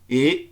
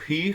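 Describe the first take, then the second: First: The word begins directly with the vowel. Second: The word begins with an audible h sound. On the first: The speaker calls it right. "Eu digo e" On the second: The speaker calls it wrong. "Eu não digo he"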